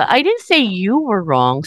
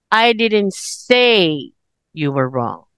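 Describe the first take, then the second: First: The stress is on the word you. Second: The stress is on the word say.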